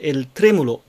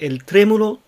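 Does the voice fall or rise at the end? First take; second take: fall; rise. First: The pitch falls at the end. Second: The pitch stays high at the end. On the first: The phrase is finished. The speaker calls it wrong. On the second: More of the sentence follows. The speaker calls it right.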